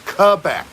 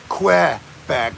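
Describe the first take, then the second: First: It is pronounced with a French accent. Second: It is pronounced with an English accent. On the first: The speaker calls it right. "It's Quebec" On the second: The speaker calls it wrong. "Don't say Quebec, you damn English asshole"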